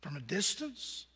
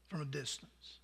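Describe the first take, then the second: First: Softly echoed as a question, From a distance rising; quiet rising echo; questioning repeat. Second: Much lower and softer, From a distance falling to rest; hushed falling answer; settled repeat. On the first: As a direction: let From a distance hang as a question. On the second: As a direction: let From a distance land low and final. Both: Shown as a demonstration.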